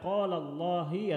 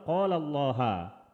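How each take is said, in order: First: Allah ends with an i vowel. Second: Allah ends with an a vowel. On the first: "Tidak boleh dibaca" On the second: "Tidak boleh dibaca"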